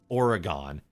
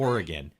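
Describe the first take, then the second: First: Oregon is said the way outsiders say it. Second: Oregon is said the way locals say it. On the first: The speaker calls it wrong. "They think it's pronounced Oregon" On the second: The speaker calls it right. "It's pronounced"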